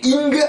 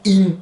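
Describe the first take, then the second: First: ING with a sounded hard g at the end; G prononcé à la fin. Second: IN nasalised, final g held back; G final retenu. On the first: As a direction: let ING ring into a final G. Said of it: "sauf que vous enlevez le G". (« ing » avec un g final bien prononcé) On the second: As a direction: stop IN just before the g. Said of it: "enlevez le G au dernier moment". (« in » nasal, sans le g final) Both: Shown as a demonstration.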